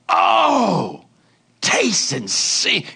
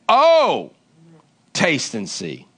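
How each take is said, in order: First: It is read with eager, heightened feeling. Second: It is read plainly, without extra feeling.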